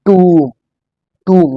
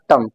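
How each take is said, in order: First: "tomb" as a long "toom"; drawn-out falling "tomb"; correct pronunciation. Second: "tomb" as short "tum"; clipped uh vowel in "tomb"; wrong pronunciation. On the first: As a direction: model "tomb" with held oo and silent b. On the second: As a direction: show the mistaken "tomb" rhyming with "hum". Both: Shown as a demonstration. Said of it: "not tomb".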